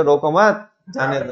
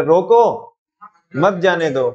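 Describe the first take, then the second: First: Quick रोको मत together, rising, then जाने दो falls away; pause after मत. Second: रोको loud, high and rising, pause, then मत जाने दो; pause after रोको. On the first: Teacher voices policeman waving thief through, pause after मत. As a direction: keep मत on रोको, let जाने दो drop. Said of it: "दोनों बिल्कुल अपोजिट है". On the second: Teacher contrasts opposite meanings, emphatic order with pause after रोको. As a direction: punch रोको alone, then मत जाने दो falling. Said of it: "एक में तो कह रहे". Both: Shown as a demonstration.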